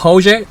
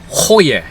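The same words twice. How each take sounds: First: The name is said with an anglicized pronunciation. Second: The name is said with a Danish-like pronunciation. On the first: The speaker calls it wrong. "it's actually not Hoje, obviously. That's how I've been saying it" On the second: The speaker calls it right. "It's Hoje"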